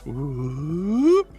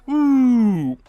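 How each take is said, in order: First: The pitch goes up on the whoop. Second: The pitch goes down on the whoop. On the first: "you go up in tone and pitch" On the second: "you go down with whoops"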